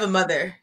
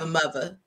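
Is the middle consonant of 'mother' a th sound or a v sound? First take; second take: th; v. First: The middle consonant is a th sound. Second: The middle consonant is a v sound. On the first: This is not how locals say it. The speaker calls it wrong. "You do not have a mother in DC" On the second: This is the local way of saying it. The speaker calls it right. "It's MUVA"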